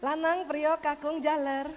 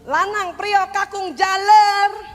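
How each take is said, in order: First: It is called in a calm, normal voice. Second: It is called in an angry, exasperated voice.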